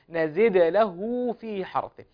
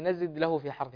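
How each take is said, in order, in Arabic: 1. الدال الأخيرة تُنطق مع ارتداد واضح للصدى. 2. الدال الأخيرة مكتومة بلا ارتداد للصدى.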